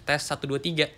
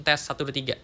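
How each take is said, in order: Both takes have the same delivery.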